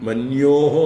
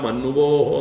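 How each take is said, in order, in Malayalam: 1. n നു ശേഷം 'y' പോലുള്ള ഒരു ഗ്ലൈഡ് മാത്രമേയുള്ളൂ. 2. n നു ശേഷം 'v' ശബ്ദം മാത്രമേയുള്ളൂ. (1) "ഒന്നുമല്ല" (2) "ഒന്നുമല്ല"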